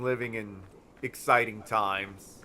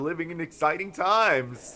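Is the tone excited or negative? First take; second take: negative; excited. First: The phrase is said in a gloomy, negative tone. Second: The phrase is said in a bright, excited tone. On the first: The times are troubling. "That is said very negatively" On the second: The times are thrilling. "Ooh, cool"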